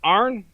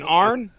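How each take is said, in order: Both takes have the same delivery.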